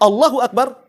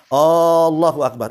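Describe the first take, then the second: First: The opening vowel is kept short. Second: The opening vowel is drawn out long. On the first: It states that God is the greatest. The speaker calls it right. "Allah Maha Besar" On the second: It becomes a question: is God the greatest? The speaker calls it wrong. "kalau seandainya alifnya dipanjangkan"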